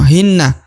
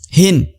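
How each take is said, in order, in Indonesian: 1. Bunyi n langsung bersambung ke vokal. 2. Bunyi n dipotong tanpa vokal sesudahnya. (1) "tidak langsung hinna" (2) "nun sukunnya harus dihentikan ya ketika dibaca"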